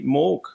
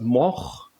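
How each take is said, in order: First: It is pronounced in an easier English-style way. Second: It is pronounced in a Dutch way. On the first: "the pronunciation of Morg is really Morg" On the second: "Originally, uh, it was Moch, ... the Netherlands way"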